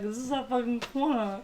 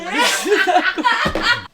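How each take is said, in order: First: Softer, level retort; understated turf claim. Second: Very high, loud, slow screech; comic over-the-top shriek; hammed-up squawk. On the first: Retold or imitated. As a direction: claim the corner without raising the voice. Roommate's take in the turf quarrel. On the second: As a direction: screech the turf claim for laughs. [name]'s take in the turf quarrel.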